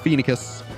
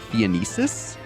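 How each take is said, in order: First: The name does not sound like Phoenician. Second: The name sounds like the word Phoenician. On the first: The speaker calls it right. "but no, it's Phoenicus" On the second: The speaker calls it wrong. "I pronounced it Phoenicis, um, like Phoenician"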